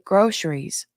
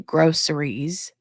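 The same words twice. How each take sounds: First: The middle consonant is an 'sh' sound. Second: The middle consonant is a plain 's' sound. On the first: "put an S H in the chat if you say" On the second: "Put a C in the chat if you say"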